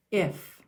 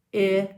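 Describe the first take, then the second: First: Said in the usual way. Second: IF split into a short i, then a long f; sounding out. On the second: Shown as a demonstration. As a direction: say IF sound by sound, drawn out. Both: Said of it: "Let's say the sounds".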